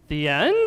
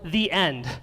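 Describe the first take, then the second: First: The voice rises at the end like a question. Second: The voice falls at the end like a statement. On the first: It may not really be the end. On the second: It is the end.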